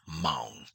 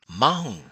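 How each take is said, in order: First: The vowel is long with a level tone. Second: The vowel is said with a raised tone. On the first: A prefix for a young man. "This is a male prefix" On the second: To drive. "raise the tone by adding the wisabao or two palates"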